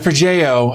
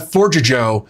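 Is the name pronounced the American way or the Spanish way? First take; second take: Spanish; American. First: The name is said with a Spanish-style pronunciation. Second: The name is said like English 'forger Joe'. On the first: The speaker calls it right. "a more Spanish approach" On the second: The speaker calls it wrong. "I kept calling it uh, Forger Joe because I'm a dumb American"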